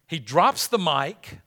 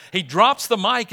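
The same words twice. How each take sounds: First: Said in the usual way. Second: Emphatic louder repeat. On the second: Shown as a demonstration. Pastor hammering the point to the congregation, emphatic. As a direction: punch it louder, rising at the end.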